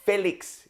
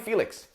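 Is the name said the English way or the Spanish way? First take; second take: Spanish; English. First: The name is said with Spanish pronunciation. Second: The name is said with English pronunciation. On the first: "Felix is how you pronounce his name" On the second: "he doesn't want any problems, so you say, call me Felix"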